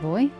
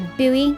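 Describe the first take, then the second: First: It is said in one syllable, like boy. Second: It is said in two syllables, like boo-ee. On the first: This is how the speaker's own people say it. "we pronounce it boy" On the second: This is how Americans say it. "I suppose if you're American"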